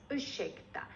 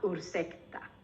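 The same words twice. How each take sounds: First: The r and s merge into an sh sound. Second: The r and s are pronounced separately. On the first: The speaker calls it right. "important that you pronounce this as ursäkta" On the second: The speaker calls it wrong. "and not ursäkta"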